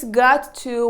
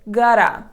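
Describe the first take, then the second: First: Each word is said fully and separately. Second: The words are run together in a contraction. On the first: It sounds formal. "you can replace got to" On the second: It sounds casual. "with gotta"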